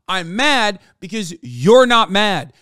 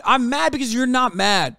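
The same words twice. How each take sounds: First: "you're" punched, the whole line slow and loud; stress on you're. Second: Said in the usual way. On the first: Real, not acted. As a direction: lean hard on "you're", slowing right down.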